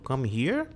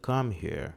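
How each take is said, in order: First: The pitch rises at the end. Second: The pitch stays level at the end. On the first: It sounds like a question. "tom de pergunta" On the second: It sounds like a statement. "como se fosse uma afirmativa mesmo"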